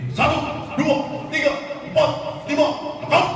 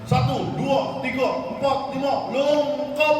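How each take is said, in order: First: The count is short, clear and firm. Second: The count is drawn out and theatrically overdone. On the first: The speaker calls it right. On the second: The speaker calls it wrong. "jangan dibuat-buat, jangan berlebihan"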